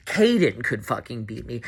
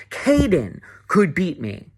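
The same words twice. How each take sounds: First: Said in the usual way. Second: "Kaden could beat me" said slowly, each word weighed, "Kaden" lifted; slow emphasis. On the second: Real, not acted. Venting to camera about the game, slow and pointed. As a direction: drag it out to drive the point home. Repeats line, second take stressed.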